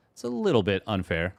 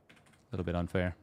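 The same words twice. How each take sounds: First: Said in the usual way. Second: Softer, lower muttered echo; quiet muttered repeat. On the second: Shown as a demonstration. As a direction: mutter it again under your breath.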